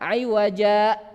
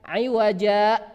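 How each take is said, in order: No difference in how they are said.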